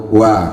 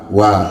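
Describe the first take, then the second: No difference in how they are said.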